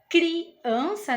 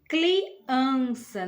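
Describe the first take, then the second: First: The word has an R sound after the C. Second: The word has an L sound after the C. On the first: The speaker calls it right. "Em vez dele falar criança" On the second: The speaker calls it wrong. "ele fala o L no lugar do R. Então fica"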